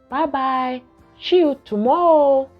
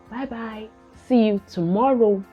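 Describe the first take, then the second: First: It is said in a babyish, babbling voice. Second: It is said in a clear, ordinary adult voice. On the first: It copies the child's babbling. The speaker calls it wrong. "rather than say" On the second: It models the correct pronunciation. The speaker calls it right. "just say it the normal way"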